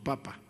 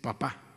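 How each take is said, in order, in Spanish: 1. El acento está en la primera sílaba. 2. El acento está en la última sílaba. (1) "no papa" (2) "con acento"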